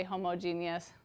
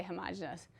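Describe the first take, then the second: First: "homogeneous" said as hoh-moh-JEE-nee-us; teacher's usual pronunciation. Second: "homogeneous" said as huh-MAH-juh-nus; students' pronunciation. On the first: Teacher telling students the preferred form, "homogeneous" as hoh-moh-JEE-nee-us. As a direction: stress JEE in "homogeneous", with a long first O. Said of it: "Usually I say homogeneous". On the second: Teacher quoting how some students say it, "homogeneous" as huh-MAH-juh-nus. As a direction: stress the second syllable of "homogeneous": huh-MOJ-uh-nus. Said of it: "Some students say homogeneous".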